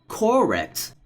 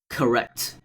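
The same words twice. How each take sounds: First: The first vowel is a full, clear vowel. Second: The first vowel is a weak schwa. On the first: The speaker calls it wrong. "not correct" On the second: The speaker calls it right. "there's a hidden schwa"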